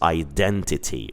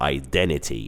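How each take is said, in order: First: The T after the N is clearly pronounced. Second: The T after the N is dropped.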